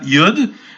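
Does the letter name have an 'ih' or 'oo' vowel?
oo. The vowel is an 'oo' sound. "the way they pronounce it is not Yud"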